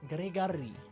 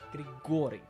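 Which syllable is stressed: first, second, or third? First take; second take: third; second. First: The stress is on the third syllable. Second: The stress is on the second syllable. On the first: The speaker calls it wrong. "Or it could be on the third syllable" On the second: The speaker calls it right. "Or it could be on the second one"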